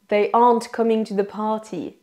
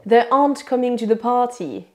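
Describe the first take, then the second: Both takes have the same delivery.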